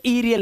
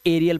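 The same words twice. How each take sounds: First: ईरियल starting with ee; wrong first vowel. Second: एरियल starting with ay; correct first vowel. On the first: Teacher showing what not to read, ee-start ईरियल. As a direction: open ईरियल on a long ee. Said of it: "ईरियल नहीं पढ़ोगे". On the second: Teacher giving the correct reading, ay-start एरियल. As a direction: open एरियल on an ay sound. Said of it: "इसे एरियल पढ़ोगे". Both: Shown as a demonstration.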